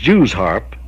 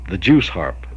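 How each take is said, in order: First: The first word ends with a z sound. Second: The first word ends with an s sound. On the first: This matches the actual spelling of the name. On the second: This is how country people say it. "that's another pronunciation"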